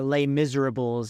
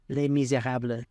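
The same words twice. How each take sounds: First: The title is said in an American way. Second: The title is said in a non-American way.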